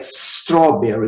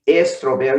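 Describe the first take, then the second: First: No vowel is added before the s. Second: An 'eh' vowel is added before the s. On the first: The speaker calls it right. "É strawberry" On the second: The speaker calls it wrong. "nem strawberry, nem nada disso"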